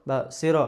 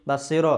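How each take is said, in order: No difference in how they are said.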